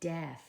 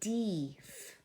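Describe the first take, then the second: First: The vowel is a short E sound. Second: The vowel is a long E sound. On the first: The speaker calls it right. "short E" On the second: The speaker calls it wrong. "It should be long E"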